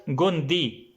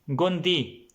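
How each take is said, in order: Both takes have the same delivery.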